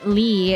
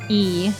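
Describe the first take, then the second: First: The name begins with an L sound. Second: The name begins directly with a vowel. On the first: The speaker calls it wrong. "If you say Lee" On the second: The speaker calls it right. "it's actually E"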